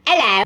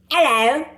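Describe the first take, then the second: First: A clumsy put-on British hello; bad British accent. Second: A clumsy fake British hello, pitched up; a wannabe British greeting, overdone; bad British accent. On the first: Showing viewers his failed British greeting. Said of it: "Yeah, just like that". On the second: Guy faking British for a girl, badly. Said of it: "my best Millie Bobby Brown impression".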